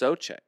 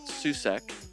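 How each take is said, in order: First: The first vowel is a long O. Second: The first vowel is not a long O. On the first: The speaker calls it right. "The O-U in this guy's last name has a long O pronunciation in it" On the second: The speaker calls it wrong. "It is not Susek"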